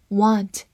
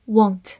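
First: "want" with an open American "ah" vowel; American "want", vowel unrounded; American pronunciation. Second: "want" with a rounded British short o; British "want", lips rounded on the o sound; British-style pronunciation. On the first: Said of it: "美式发音". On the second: 美式发音want. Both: Shown as a demonstration.

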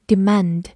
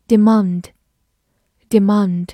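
First: "demand" with the American "a" of "cat"; American pronunciation. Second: "Demand" with a long British "ah" in the second syllable; British pronunciation. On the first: Teacher adding the American reading for learners, short-a "demand". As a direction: say "demand" as "di-MAND", American style. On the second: Teacher reading a review word to learners, British long-a "Demand". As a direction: say "Demand" as "di-MAHND". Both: Shown as a demonstration. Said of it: "美式发音demand".

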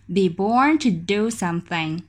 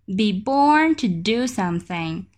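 Both takes have the same delivery.

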